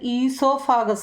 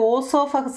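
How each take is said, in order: First: The word begins with an 'ee' sound. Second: The word begins with an 'oh' sound. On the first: The speaker calls it right. "ഓ അവിടെ silent ആയതുകൊണ്ട് ഈ ഈ ആണ് അവിടെ ഉച്ചരിക്കുന്നത്" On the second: The speaker calls it wrong. "ആരും ഓസോഫഗസ് എന്ന് പറയത്തില്ല"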